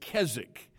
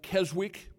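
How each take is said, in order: First: The middle w sound is silent. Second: The middle w sound is heard. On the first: The speaker calls it right. "but it's Keswick" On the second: The speaker calls it wrong. "It looks like Keswick"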